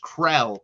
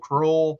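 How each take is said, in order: First: The name has an eh vowel, rhyming with bell. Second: The name has an oh vowel, rhyming with roll. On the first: The speaker calls it right. "It is Krell. That is how you pronounce the last name" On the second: The speaker calls it wrong. "some people have pronounced it"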